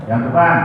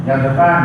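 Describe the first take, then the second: The two takes are said the same way.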